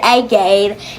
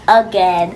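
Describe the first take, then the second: First: It is said with a British accent. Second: It is said with an American accent.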